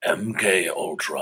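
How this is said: It is said in Megatron's voice.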